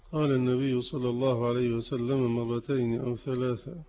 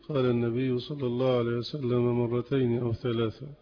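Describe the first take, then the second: Both takes have the same delivery.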